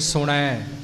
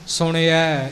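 First: No i vowel follows the n sound. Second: A short i vowel follows the n sound. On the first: The speaker calls it wrong. "ਸੁਣੈ ਉਹ ਵੀ ਗਲਤ ਹੈ" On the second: The speaker calls it right. "ਇਹ ਇਸ ਦਾ ਸ਼ੁੱਧ ਉਚਾਰਨ ਹੈ"

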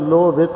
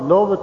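First: A short i vowel is said after bh. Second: The short i vowel after bh is dropped. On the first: The speaker calls it right. "ਇਹ ਧਿਆਨ ਨਾਲ ਐਸੇ ਸ਼ੁੱਧ ਉਚਾਰਨਾ" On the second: The speaker calls it wrong. "ਆਮ ਅਸੀਂ ਲੋਭਤ ਹੀ ਕਹਿੰਦੇ ਹਾਂ, ਭੱਬੇ ਨੂੰ ਸਿਹਾਰੀ ਜਿਹੜੀ ਲੱਗੀ ਹੈ ਛੱਡ ਜਾਂਦੇ ਹਾਂ"

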